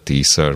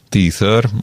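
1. A középső mássalhangzó egy 's' hang. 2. A középső mássalhangzó egy lágy 'th' hang. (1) "vagy S-t mondanak helyette" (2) "Itt a közepén hallom a TH-t"

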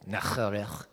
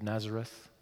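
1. Nazareth se prononce avec la prononciation locale. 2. Nazareth se prononce avec la prononciation anglaise familière.

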